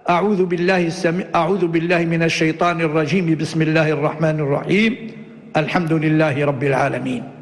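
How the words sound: A pause comes only after the second phrase. "وصل الأول بالثاني مع الوقف عليه وقطع الثالث"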